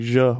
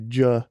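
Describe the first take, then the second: First: The J is said with the French sound. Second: The J is said with the English sound. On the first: This is the older French pronunciation. "instead of saying je" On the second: This is how English speakers say it. "we say je"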